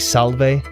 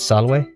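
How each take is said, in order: First: The middle consonant is a V sound. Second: The middle consonant is a W sound. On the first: The speaker calls it wrong. "They say salve. That's not correct" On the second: The speaker calls it right. "V is a W sound, so it's salve"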